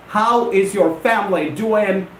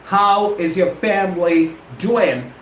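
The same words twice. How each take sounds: The two takes are said the same way.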